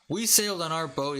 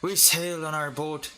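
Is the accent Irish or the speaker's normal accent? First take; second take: normal; Irish. First: It is spoken in the speaker's everyday accent. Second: It is spoken in an Irish-sounding accent. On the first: "In my normal accent" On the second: "Oh, that's Irish. Whoops, my bad"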